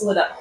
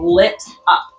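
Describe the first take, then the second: First: The words are run together quickly. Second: The words are said slowly and clearly. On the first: "I always say that really fast" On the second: "so I'm saying lit up"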